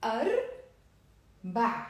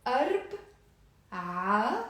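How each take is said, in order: First: أربع drawn out very slowly, falling at the end; teacher contrasting two sounds; slow contrast demo. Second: أربع drawn out very slowly, rising at the end; teacher contrasting two sounds; slow contrast demo. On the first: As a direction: stretch أربع slowly and let it drop. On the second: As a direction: stretch أربع slowly and lift it. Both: Shown as a demonstration. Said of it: "let's repeat the difference".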